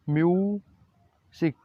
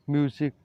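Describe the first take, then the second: First: म्यूजिक drawn out slowly, myu-zik, syllables separated; slow pronunciation demo. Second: Said in the usual way. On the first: Shown as a demonstration. Teacher modelling the last word for students, slow and clear. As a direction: stretch म्यूजिक so every sound is heard. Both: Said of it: "कैसे pronounce करते हैं".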